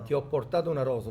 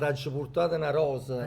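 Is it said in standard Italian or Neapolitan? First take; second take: standard Italian; Neapolitan. First: It is said in standard Italian. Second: It is said in Neapolitan dialect.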